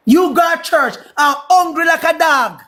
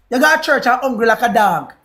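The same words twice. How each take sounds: First: Slow, higher-pitched mocking repeat, leaning on "hungry"; emphatic taunt. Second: Said in the usual way. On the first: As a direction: draw out "hungry like a dog" as a taunt.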